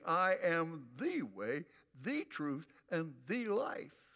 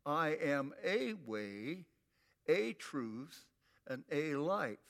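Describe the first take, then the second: First: "the" stressed as "thee" before each noun; emphatic THE. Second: "a" said as a long "ay" before each noun; stress on A. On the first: Preacher showing Jesus's definite article, emphatically stressed "the". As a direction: punch each "the" as a long "thee", slowly. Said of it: "He summarizes it all emphatically saying". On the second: Preacher showing the wrong translation with indefinite articles, stressed "a". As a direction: lean slowly on each "a", pronounced "ay". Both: Shown as a demonstration.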